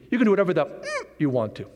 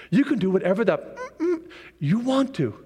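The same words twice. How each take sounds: First: "mm" hummed as a single beat for the missing word; one-syllable censor. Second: "mm-mm" hummed as two beats for the missing word; censored mm-mm. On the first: Preacher correcting the censored word, one single "mm". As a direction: bleep the word out with one short "mm". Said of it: "'cause it's only one syllable. It should be". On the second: Preacher censoring the devil's rules, "mm-mm" in two syllables. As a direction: bleep the word out with a two-beat "mm-mm". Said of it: "I don't know why I go mm-mm". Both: Shown as a demonstration.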